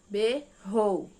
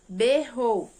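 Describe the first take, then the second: First: "Berrou" in two loud, separate beats; split into syllables. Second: Said in the usual way. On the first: Shown as a demonstration. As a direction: pause between "Ber" and "rou". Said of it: "quantas sílabas deu na palavra". ("Berrou" separado em duas sílabas, bem marcado) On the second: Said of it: "Separou lá".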